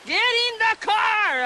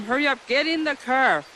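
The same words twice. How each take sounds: First: High-pitched re-enacted yell; retold scream. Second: Mildly raised, urgent retelling of a call; retold holler. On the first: Mother re-enacting her panic at the girls, high screamed yell. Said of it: "And I was yelling, screaming". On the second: Mother telling her girls to hurry into the car, mildly hollered. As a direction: lightly imitate hollering to hurry. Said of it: "I hollered at the girls to hurry up".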